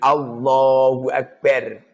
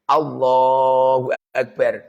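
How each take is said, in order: First: The vowel in Allah is held one count. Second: The vowel in Allah is held two counts. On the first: "satu alif" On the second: "dua alif"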